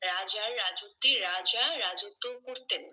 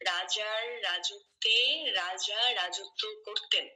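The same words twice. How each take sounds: First: The sentence is spoken fast. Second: The sentence is spoken slowly. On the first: "তারপরে আবার দ্রুত গতিতে বলবেন" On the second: "প্রথমে আপনি ধীরে ধীরেই বলতে পারেন"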